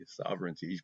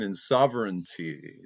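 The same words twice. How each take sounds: First: Sovereignty repeated much softer, to herself; soft echo. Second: Said in the usual way. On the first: Real, not acted. Vlogger softly repeats her key word to the viewer. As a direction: let Sovereignty fall away into a soft echo.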